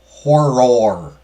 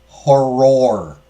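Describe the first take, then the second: Both takes have the same delivery.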